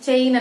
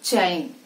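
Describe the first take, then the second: First: The ch sound is released softly, without force. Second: The ch sound is released with strong force. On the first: The speaker calls it wrong. "చాలా మంది చైన్ చైన్ అని ఇలా చెప్ చైన్ అని చెప్తూ ఉంటారు" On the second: The speaker calls it right. "ఆ stress అనేది రావాలి"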